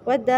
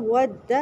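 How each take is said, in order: First: ود said with its vowel stretched out, the wrong way; ود recited incorrectly with a lengthened vowel. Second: ود said short and crisp, with its doubled dal held; correct ود. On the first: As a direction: draw out the vowel of ود as a mistake. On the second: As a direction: say ود briefly and firmly, the right way. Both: Shown as a demonstration. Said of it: "ود نہیں پڑھنا".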